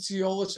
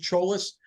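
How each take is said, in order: First: The name starts with a 'ts' sound. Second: The name starts with a 'ch' sound. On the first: The speaker calls it wrong. "A lot of people pronounce it Ciolas" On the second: The speaker calls it right. "I pronounce it Cholas, like a C H instead of a T S"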